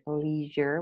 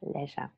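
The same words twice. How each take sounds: First: It is said with an American pronunciation. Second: It is said with a British pronunciation. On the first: "So in American English, you hear leisure" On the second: "and in British English, you have leisure"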